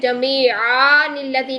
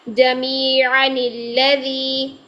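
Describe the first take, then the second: First: The vowel before the nun is long. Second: The vowel before the nun is short. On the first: The speaker calls it wrong. "नहीं करेंगे" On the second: The speaker calls it right. "तो हम पढ़ेंगे"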